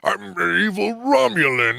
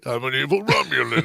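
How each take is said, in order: First: The villain voice is big and over the top. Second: The villain voice is between big and small.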